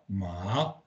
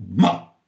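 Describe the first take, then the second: First: The pitch rises through the syllable. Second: The pitch falls through the syllable. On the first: It means hemp or flax. "avec ton montant" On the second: It means to blame or insult. "le ton qui descend"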